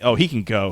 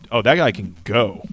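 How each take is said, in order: First: It sounds dismissive, like telling him to leave. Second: It sounds admiring, like praising his skill.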